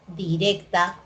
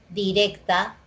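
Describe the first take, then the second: The two takes are said the same way.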